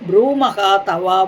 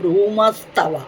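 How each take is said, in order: First: Two words, the first ending in a breathy h. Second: One joined word, the h replaced by s.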